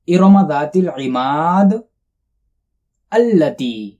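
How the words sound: There is a pause before the last word.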